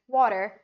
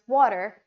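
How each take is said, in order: First: It is said in an American accent. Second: The same.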